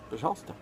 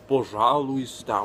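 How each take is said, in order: First: Syllables are reduced and run together. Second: Every syllable is pronounced fully and distinctly. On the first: The speaker calls it right. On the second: The speaker calls it wrong.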